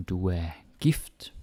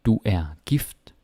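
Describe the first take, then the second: First: Breathy unvoiced whisper of Du er gift. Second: Said in the usual way. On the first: Shown as a demonstration. Teacher whispering a practice sentence to learners. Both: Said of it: "you can also put the stress in different places".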